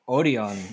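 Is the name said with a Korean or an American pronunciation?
Korean. The name is said with a Korean pronunciation.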